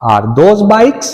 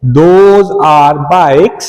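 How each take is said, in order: First: Bikes lifted higher as a question; asking tune, bikes rising. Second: Said in the usual way. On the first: Shown as a demonstration. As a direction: let the voice go up on bikes. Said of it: "उधर sound थोड़ा आपका up जाएगा". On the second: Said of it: "और बोलना भी वैसे ही है".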